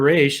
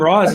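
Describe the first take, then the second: First: The name ends with an 'sh' sound. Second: The name ends with an 's' sound. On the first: This is how the character's creator says the name. "Denny O'Neil ... said it's Raish" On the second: This is how the film says the name. "he called him Ra's"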